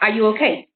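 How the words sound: The question is said in an aggressive tone. The speaker seems hostile toward the listener. "how I said that sounded a bit aggressive"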